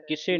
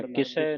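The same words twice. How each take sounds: First: ਕਿਸੇ ending in a closed "e"; wrong closed ending. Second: ਕਿਸੇ ending in an open "ai"; open final vowel. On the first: Teacher shows the misreading, ਕਿਸੇ with closed "e". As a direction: say ਕਿਸੇ as "kise". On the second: Teacher gives the proper reading, ਕਿਸੇ ending in open "ai". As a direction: say ਕਿਸੇ slowly as "kisai". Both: Shown as a demonstration. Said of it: "ਕਿਸੇ ਨਹੀਂ ਪੜ੍ਹਨਾ".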